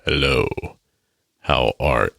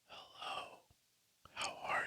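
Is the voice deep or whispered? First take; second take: deep; whispered. First: It is spoken in a low, deep voice. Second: It is spoken in a soft whisper. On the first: "should I be like a deep voice A S M R?" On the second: "I'm not whispering into this microphone. I think it would just be weird if I was like"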